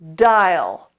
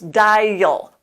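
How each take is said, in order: First: The word flows smoothly without a syllable break. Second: The word is split into two separate syllables. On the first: The speaker calls it right. "Try to keep it smooth" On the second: The speaker calls it wrong. "you're going to hear yourself making two separate syllables"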